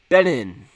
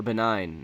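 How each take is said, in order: First: BEN-in, rhyming with "pen in"; Benin ending in -in. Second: Buh-NINE, rhyming with "benign"; Benin ending like "nine". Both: Shown as a demonstration. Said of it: "not Benin".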